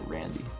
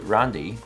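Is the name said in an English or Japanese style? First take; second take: English; Japanese. First: The name is said with English-style vowels. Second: The name is said with Japanese-style vowels. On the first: "I guess I could say Randy" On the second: "the uh, Japanese pronunciation, so it just worked into Randi"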